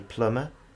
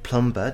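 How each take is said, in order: First: The b sound is silent. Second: The b sound is pronounced. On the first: The speaker calls it right. "Maybe the speaker will say plumber" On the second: The speaker calls it wrong. "plumber doesn't exist"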